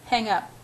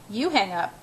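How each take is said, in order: First: Said in the usual way. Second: "You" pitched up, then falling away; playful emphasis on "You"; stress on You. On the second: A narrator's reading. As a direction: lean on "You" to toss it back. Tosses the order back playfully.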